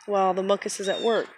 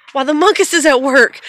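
First: Said in the usual way. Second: Much louder and higher; playful loud repeat. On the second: Pretend. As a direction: boom it out in mock announcement. Same words repeated, boomed out playfully.

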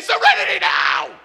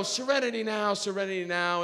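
First: Full-force comic shout; hammed-up explosion of fury; enraged scream. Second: Self-calming mantra. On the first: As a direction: bellow it as if totally losing it. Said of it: "I choke him and I say". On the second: Acted. Muttered self-calming mantra under stress.

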